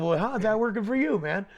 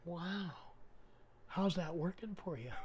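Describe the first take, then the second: First: Loud, higher replay of the question; unintended smart-ass. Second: Softly retold, understated wow and question; unintended smart-ass. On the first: Retold or imitated. Plumber explaining his first thought, loud unintended smart-ass. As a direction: blurt it out loudly, half amused. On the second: Plumber answering a Satan worshiper, softly unintended smart-ass. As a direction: ask it quietly, without meaning any offence. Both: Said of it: "didn't mean to be a smart ass".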